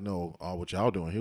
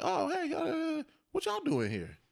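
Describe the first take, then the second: First: Suspicious, probing question; mock accusing tone, no warmth. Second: High, bright and casual, just curious; breezy innocent hello, pitched up; friendly greeting. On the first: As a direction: ask it like you're calling them out. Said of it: "It wasn't like". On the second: Retold or imitated. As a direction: greet them like old friends. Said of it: "It was more like".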